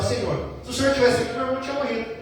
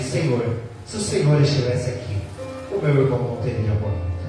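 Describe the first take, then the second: First: It is said in a demanding, confronting tone. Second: It is said in a humble, pleading tone.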